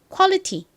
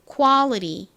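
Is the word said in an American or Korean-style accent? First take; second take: Korean; American. First: It is said with a Korean-style accent. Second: It is said with an American accent. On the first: "한국식 발음으로 먼저 따라해 볼게요" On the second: "이번엔 미국식 발음으로 해볼게요"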